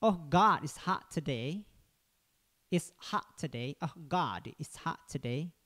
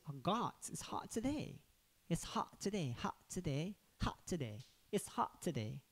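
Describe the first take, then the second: First: Lightly American accent, slow and relaxed. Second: Softer, slow British accent. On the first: Teacher demonstrates an American accent on a hot day. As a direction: say it slowly with a loose American accent. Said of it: "Misalnya nanti kalau Amerika kan". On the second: Teacher contrasts the British accent with the American one. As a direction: say it softly and slowly in a British accent. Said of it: "Tapi kalau British". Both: Shown as a demonstration.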